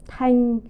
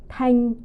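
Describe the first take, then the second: The two takes are said the same way.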